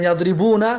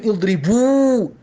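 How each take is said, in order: First: Said in the usual way. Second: اضربو ending on a long, held "uu"; final nun dropped. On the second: Shown as a demonstration. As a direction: say اضربو with no final "na", stretching the last vowel. («اضربو» بدون نون، با واو کشیدهٔ آخر)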